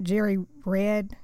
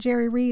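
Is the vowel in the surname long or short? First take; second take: short; long. First: The surname has a short eh vowel. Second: The surname has a long ee vowel. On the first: The speaker calls it wrong. "and not [name]" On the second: The speaker calls it right. "I think he says it Jerry Reed"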